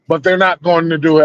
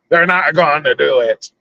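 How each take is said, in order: First: It is said in his normal voice. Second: It is said in a Jack Sparrow voice.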